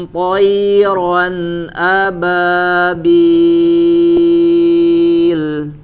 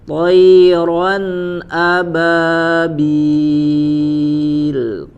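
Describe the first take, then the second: No difference in how they are said.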